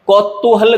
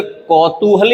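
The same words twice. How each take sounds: First: कौतूहल said higher as "kaut-too-hal"; wrong form. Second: कौतूहल said as "kau-too-hal"; single t in कौतूहल; right form. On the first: Teacher showing the mistake, कौतूहल with held t. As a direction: stop on a doubled t in कौतूहल. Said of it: "कौतूहल गलत है". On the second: Teacher correcting, कौतूहल slowly with single t. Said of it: "दोनों ही शब्द सही". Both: Shown as a demonstration.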